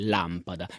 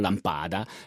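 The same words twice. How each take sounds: First: The stress is on the first syllable. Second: The stress falls on a later syllable. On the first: The speaker calls it right. "l'accento è posto sulla prima A. Abbiamo una parola sdrucciola, quindi lampada" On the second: The speaker calls it wrong. "e non lampada"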